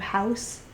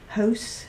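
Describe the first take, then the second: First: The vowel has a standard, general American sound. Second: The vowel has a Central Virginia mountain sound. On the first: "instead of" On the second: "his accent comes from"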